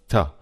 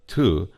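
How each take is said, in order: First: The word has a short, reduced vowel. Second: The word has a long, full vowel. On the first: "before consonants ... to is generally pronounced ta" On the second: "long to, like the word to"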